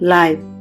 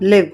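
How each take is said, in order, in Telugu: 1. ఈ అచ్చు 'eye' లోని ధ్వనిలా గ్లైడ్ అవుతుంది. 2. అచ్చు చిన్నది, ముందు భాగపు 'ఇ' ధ్వని. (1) "రెండు ప్రొనౌన్సియేషన్స్ ఉన్నాయని" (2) "ఇక్కడ ఎల్ఐవిఈ లివ్, లైవ్ దీనికి రెండు ప్రొనౌన్సియేషన్స్ ఉన్నాయని"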